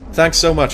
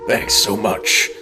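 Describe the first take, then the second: First: It is said in his normal voice. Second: It is said in a breathy put-on voice.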